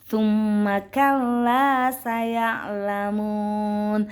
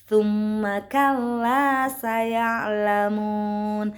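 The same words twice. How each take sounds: Both takes have the same delivery.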